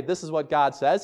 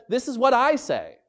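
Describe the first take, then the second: First: Said in the usual way. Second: "I" lifted high; stress on I. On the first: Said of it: "So he doesn't have to say". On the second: Shown as a demonstration. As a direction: push up on "I" in "This is what I say". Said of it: "He says".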